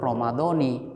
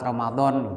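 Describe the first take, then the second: First: The word ends with an i vowel. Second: The word ends without a final vowel. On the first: This follows the grammar rules. "Kalau secara ilmu nahwu Ramadhani" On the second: The ending is left off. "nggak dikasih harokat Ramadan boleh juga"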